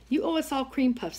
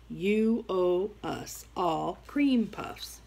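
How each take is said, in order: First: It is said at a normal pace. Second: It is said slowly and clearly.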